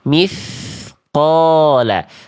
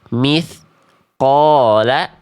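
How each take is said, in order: First: The s sound flows straight into the q. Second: A short break separates the s from the q. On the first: The speaker calls it right. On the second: The speaker calls it wrong. "tetot, salah"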